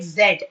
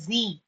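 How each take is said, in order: First: "Z" said as zed; short e and final d in "Z"; British pronunciation. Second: "Z" said as zee; long ee ending on "Z"; American pronunciation. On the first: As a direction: say "Z" to rhyme with bed. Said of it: "In British English". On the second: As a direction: say "Z" to rhyme with see. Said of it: "in American English, they pronounce it". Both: Shown as a demonstration.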